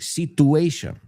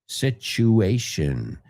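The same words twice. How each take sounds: First: The middle consonant is a plain t sound. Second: The middle consonant is a ch sound. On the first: The speaker calls it wrong. "People say situation. Lo entiendo porque la T es T en español" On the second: The speaker calls it right. "La T y la U es ch"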